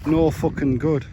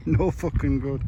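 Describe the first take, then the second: First: Said in the usual way. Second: Mock Geordie accent, drawn out. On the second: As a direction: say it like a Geordie lad. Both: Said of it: "Say that in a Geordie accent".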